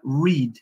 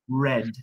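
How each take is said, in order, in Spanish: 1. La palabra no rima con bed. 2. La palabra rima con bed. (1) "En el presente se pronuncia read" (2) "En el pasado se pronuncia igual que el color rojo en inglés, que es red"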